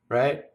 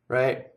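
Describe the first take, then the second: Both takes have the same delivery.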